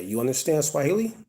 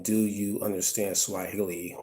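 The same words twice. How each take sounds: First: "You understand Swahili?" said as a statement, pitch climbing high on "Swahili"; rising question tune. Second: Said in the usual way. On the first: Shown as a demonstration. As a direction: raise the intonation at the end on "Swahili". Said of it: "just raising the intonation at the end". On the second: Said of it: "instead of saying".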